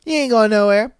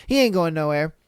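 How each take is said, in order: First: He ain't going nowhere, repeated louder with a rising end; emphatic repeat. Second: Said in the usual way. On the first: Real, not acted. Telling viewers the boyfriend will stay, louder repeat. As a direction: punch it the second time, louder.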